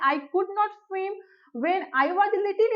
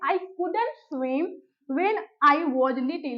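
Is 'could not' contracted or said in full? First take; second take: full; contracted. First: 'Could not' is said as two full words. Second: 'Could not' is contracted to one word, couldn't. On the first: "आप बोल सकते हैं I कुड नॉट" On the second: "pronounce करेंगे कुडंट"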